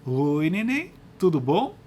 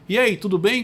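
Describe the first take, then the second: First: It is said in a playful baby-talk voice. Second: It is said in a plain adult voice.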